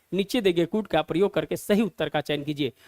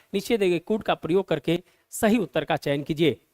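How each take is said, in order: The two takes are said the same way.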